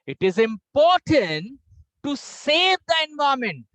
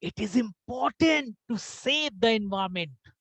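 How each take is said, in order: First: It is said with the pitch raised higher. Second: It is said with the pitch dropped lower. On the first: "now I will pitch more high." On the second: "now I am going below."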